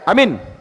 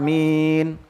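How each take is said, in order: First: The first vowel is short. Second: The first vowel is long. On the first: The speaker calls it wrong. "Jangan amin. Nah, itu salah" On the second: The speaker calls it right. "A-nya panjang ya. A itu pakai hamzah"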